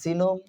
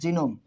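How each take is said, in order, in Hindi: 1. यह शब्द 'z' ध्वनि से शुरू होता है। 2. यह शब्द 'j' ध्वनि से शुरू होता है।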